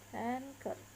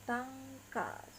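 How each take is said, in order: First: It is said with English pronunciation. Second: It is said with Japanese pronunciation.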